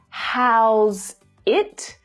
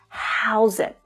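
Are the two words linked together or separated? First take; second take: separated; linked. First: The two words are kept separate. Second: The two words are joined together. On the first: The speaker calls it wrong. "Not how's it" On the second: The speaker calls it right. "They should push together those sounds"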